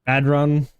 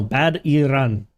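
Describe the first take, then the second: First: "Bad run" in two even syllables; name said compactly. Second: "Bad Iran" sounded out slowly, in separate syllables; slow, deliberate "Bad Iran" with three beats; corrected name pronunciation. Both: Shown as a demonstration. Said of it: "No, Bad Iran".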